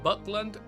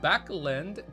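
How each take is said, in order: First: The first syllable sounds like 'buck'. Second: The first syllable sounds like 'back'. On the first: The speaker calls it wrong. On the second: The speaker calls it right.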